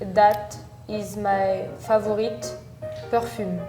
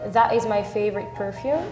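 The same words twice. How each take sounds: First: It is said with a strong French accent. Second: It is said with a mostly English-sounding accent. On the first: "I think French people would say like" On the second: "So I would say, at least me"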